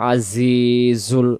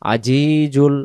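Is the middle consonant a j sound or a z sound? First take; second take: z sound; j sound. First: The middle consonant is a z sound. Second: The middle consonant is a j sound. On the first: The speaker calls it right. "আজি আওয়াজটা সামনের নিচের দাঁতের জায়গা থেকে হবে" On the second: The speaker calls it wrong. "তখন জিম অক্ষর"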